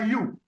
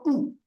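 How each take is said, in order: First: It is said with a y-glide, like 'you'. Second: It is a rounded back vowel, like 'oo'. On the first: This is the English reading of the letter. The speaker calls it wrong. "En anglais, on prononce ça you" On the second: This is the reading used in this language. The speaker calls it right. "c'est plutôt OU"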